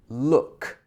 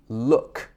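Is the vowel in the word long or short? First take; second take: short; short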